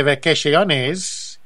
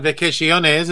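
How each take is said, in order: First: Vacaciones drawn out slowly, mock Spanish accent; slow exaggerated Spanish vacaciones; hammed-up Spanish. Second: Put-on vacaciones with a light Spanish accent; mock Spanish word. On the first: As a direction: stretch vacaciones like a jokey tourist. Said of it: "as they say". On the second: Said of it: "as they say down south of the border".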